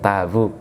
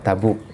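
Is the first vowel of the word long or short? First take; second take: long; short. First: The first vowel is drawn out long. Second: The first vowel is kept short. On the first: The speaker calls it wrong. "sering terbawa intonasi kebiasaannya yang memanjangkan awal, Tabuk gitu ya" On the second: The speaker calls it right. "Namanya Tabuk"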